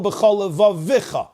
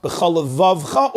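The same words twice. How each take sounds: First: "levavicha" higher, with an extra vi; levavicha, extra syllable before cha; moving shva. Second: "levavcha" with v straight into cha; levavcha, no vowel before cha; silent shva. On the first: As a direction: sound the vowel in levavicha. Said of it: "It's a moving shva". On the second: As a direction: close the syllable in levavcha. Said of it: "I say". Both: Shown as a demonstration.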